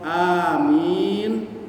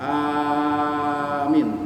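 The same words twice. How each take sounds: First: The second vowel is long. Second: The second vowel is short. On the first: It asks that the prayer be granted. "mi-nya panjang" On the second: It means safe. "Minnya enggak panjang"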